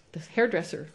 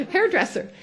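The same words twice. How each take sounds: First: Said in the usual way. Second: Hairdresser said much higher through a laugh. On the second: Shown as a demonstration. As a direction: laugh out the word hairdresser, pitched way up.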